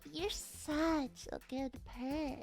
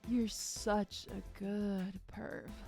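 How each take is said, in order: First: It is said in a higher, superior voice. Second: It is said in a deeper, weaker voice.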